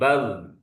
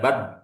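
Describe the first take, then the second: First: The final consonant flows on with slight continuing sound. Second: The final consonant stops abruptly with no flow. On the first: The speaker calls it right. "ada aliran sedikit, tapi bal" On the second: The speaker calls it wrong. "bukan bad"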